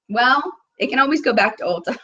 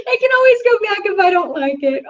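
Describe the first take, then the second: First: Said in the usual way. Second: Much higher, sing-song reassurance to herself; playful high repeat. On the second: Pretend. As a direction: bounce it up high, teasing yourself. Same line repeated, playful.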